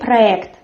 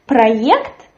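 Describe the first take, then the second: First: The vowel after the r is a hard e. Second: The vowel after the r is a soft ye. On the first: This is the usual way it is said. "We write soft ye, but we say проект" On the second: This way is heard only rarely. "you can hear maybe sometimes проект, but it is very rarely"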